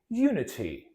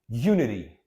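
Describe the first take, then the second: First: It is said in a British accent. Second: It is said in an American accent. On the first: "let me read it in British" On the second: "in the American accent"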